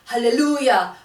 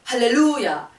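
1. 액센트는 세 번째 음절에 있습니다. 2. 액센트는 세 번째 음절에 있습니다.

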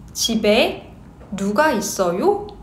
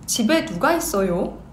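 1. 이 문장은 보통 속도로 말해요. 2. 이 문장은 빠르게 말해요. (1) "Normal speed" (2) "Quick speed"

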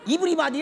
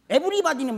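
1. 첫 모음은 'ee' 소리예요. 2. 첫 모음은 'eh' 소리예요. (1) "애가 이요?" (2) "이가 영어로 에로 발음이 되는 것이요"

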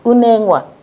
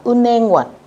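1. Đọc nhanh, n nối sang, âm h bị bỏ. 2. Đọc nhanh, n nối sang, âm h bị bỏ.

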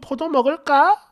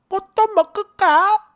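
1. 이 단어는 평범하고 어른스럽게 발음합니다. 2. 이 단어는 된소리와 아기 같은 자음으로 발음합니다.

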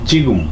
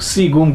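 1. শব্দটি সাধারণ j উচ্চারণ দিয়ে শুরু হয়। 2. শব্দটি s উচ্চারণ দিয়ে শুরু হয়। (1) "বেসিকের নিয়ম অনুসারে পড়ি তাহলে কি জিগুম জিগুম, কিন্তু এটা জিগুম না" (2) "সিগুম করে বলবে না"

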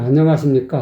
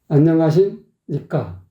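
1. 쉼 없이 인사가 자연스럽게 이어졌어요. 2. 중간에 쉼이 들어가서 인사가 끊어졌어요. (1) "그냥 안녕하십니까? 이래야지" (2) "왜 끊어? 문장의 중간을"

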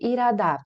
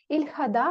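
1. Звук h пропускається, а l звучить як r. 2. Звук h вимовляється, а l залишається l.

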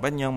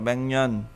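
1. Âm k đứng trước m. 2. Âm ng đứng trước m. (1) "không phải Batman" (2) "mà đọc là Batman"

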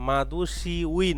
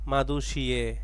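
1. শেষের অংশটি 'ui' হিসেবে উচ্চারিত হয়। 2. শেষের অংশটি 'e' হিসেবে উচ্চারিত হয়। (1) "না" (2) "উই এটা উচ্চারণ হবে এর মতো"

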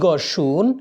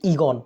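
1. শব্দটি পূর্ণ রূপে বলা হচ্ছে। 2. শব্দটি সংক্ষিপ্ত রূপে বলা হচ্ছে। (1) "মূল শব্দ হচ্ছে ইগর্ষণ" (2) "এটাকে সংক্ষেপে বলতেছি কি ইগন"

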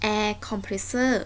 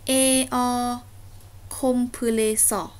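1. อ่านเร็ว พยางค์แรกๆ กลมกลืนกัน 2. อ่านช้า แต่ละพยางค์แยกกัน (1) "ถ้าเราลองอ่านเร็วๆมันจะออกเสียงเป็น" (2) "ข้อนี้อ่านว่า"

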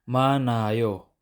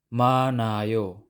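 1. Tahimik ang tunog ng h. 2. Tahimik ang tunog ng h.

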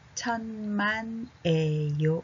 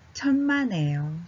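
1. このフレーズはゆっくり丁寧に言われています。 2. このフレーズは自然な速さでなめらかに言われています。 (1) "ちょっとゆっくり。" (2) "これを自然に読むと、"

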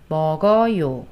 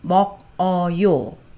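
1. 받침이 다음 모음으로 부드럽게 이어져요. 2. 음절을 끊어서 따로 발음해요.

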